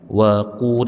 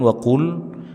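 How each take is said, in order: First: The mouth stays open, lips not rounded. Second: The lips are pushed forward and rounded. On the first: The speaker calls it right. "posisi mulut dibuka, jangan dimonyongkan" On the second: The speaker calls it wrong. "bukan wa qul"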